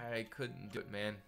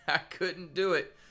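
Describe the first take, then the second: First: Said in the usual way. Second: Laughing it out, higher; chuckling through the words. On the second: Real, not acted.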